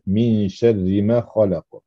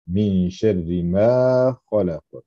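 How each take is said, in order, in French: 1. La voyelle dans ma est courte. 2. La voyelle dans ma est nettement allongée. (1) "d'oublier de faire la prolongation" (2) "J'exagère un peu"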